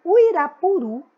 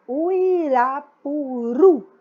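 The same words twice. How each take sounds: First: Said in the usual way. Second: "Uirapuru" stretched out syllable by syllable, loud, ending on a strong last syllable; slow demonstrated pronunciation. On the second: Shown as a demonstration. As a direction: draw out "Uirapuru" very slowly, stressing the final syllable. ("Uirapuru" bem devagar e alto, sílaba por sílaba, última forte) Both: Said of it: "presta atenção na pronúncia".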